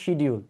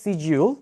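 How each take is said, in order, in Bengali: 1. এটা 'sh' দিয়ে শুরু হয় এবং এতে শক্ত 'd' আছে। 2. এটা 's/sh' দিয়ে শুরু হয়, ব্রিটিশ ঢঙে। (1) "বাংলাদেশিরা বলি আমরা হচ্ছে শিডিউল" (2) "ব্রিটিশরা বলে এটাকে সিজিউল"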